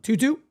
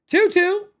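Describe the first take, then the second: First: Said in the usual way. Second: Excited count. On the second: Acted. Streamer hyping the full count for chat, excited. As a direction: count called much higher and louder.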